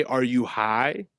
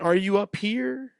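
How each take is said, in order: First: Said in the usual way. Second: "up here" stretched out and pitched high; slow, high mimicry of his muddled "up here"; imitating drunk garble. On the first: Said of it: "I think he meant to say". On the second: Drunk stranger garbles his question, imitated high, slow "up here". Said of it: "but he went".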